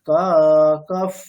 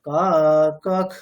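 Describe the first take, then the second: First: The final visarga sounds like a breathy 'ph'. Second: The final visarga sounds like a breathy 'kh'. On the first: "তারপরে কাকাফ বললেন" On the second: "কাকাখ বললেন"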